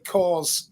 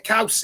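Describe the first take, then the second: First: The vowel sounds like the one in 'saw'. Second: The vowel sounds like the one in 'cow'. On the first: The speaker calls it wrong. "people this side of uh, the pond who who say cause instead of couse, because that's how it looks" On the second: The speaker calls it right. "couse. It's Welsh for cheese"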